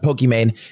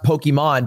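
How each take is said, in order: First: The name ends rhyming with 'mane'. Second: The name ends with the sound of 'Iman'. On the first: This is how most people say the name. "everyone just pronounced it Pokimane" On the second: The name contains her real name. "it's supposed to be pronounced Pokemon"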